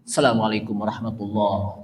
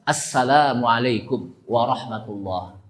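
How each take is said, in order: First: The phrase is rushed and its words are clipped. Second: The phrase is said slowly with every word full. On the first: The speaker calls it wrong. "dia baca mungkin karena buru-buru" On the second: The speaker calls it right. "Padahal yang benar hadisnya apa?"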